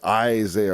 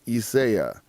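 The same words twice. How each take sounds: First: The name is said the usual English way. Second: The name is said the original, non-English way. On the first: This is how English speakers say it. The speaker calls it wrong. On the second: This is how the name is really said. The speaker calls it right.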